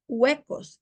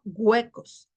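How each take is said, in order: First: Said in the usual way. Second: "huecos" said as güecos; hard g opening "huecos". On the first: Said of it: "son los huecos y no huecos". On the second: Shown as a demonstration. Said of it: "y no huecos".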